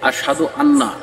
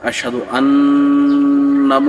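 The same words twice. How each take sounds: First: The double n is said plainly without nasal hold. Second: The double n is held with a nasal hum. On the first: The speaker calls it wrong. "এখানে গুন্না করে না" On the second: The speaker calls it right. "এখানে গুন্না করতে হবে"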